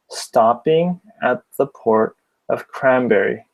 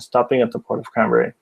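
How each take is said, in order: First: It is read slowly with every word enunciated. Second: It is read at a normal, faster speaking speed. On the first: "I'm speaking slowly too, so when I do that, I tend to enunciate" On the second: "saying it like a normal speaking speed"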